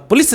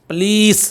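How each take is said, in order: First: पुलिस with a quick, short "lis"; short-vowel पुलिस; wrong short पुलिस. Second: पुलिस as "p'leees" with a long "ee"; held "lees" in पुलिस; long-vowel पुलिस. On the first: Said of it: "बस पुलिस नहीं". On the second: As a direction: stretch the second syllable of पुलिस. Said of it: "L ई ई S आता है". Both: Shown as a demonstration.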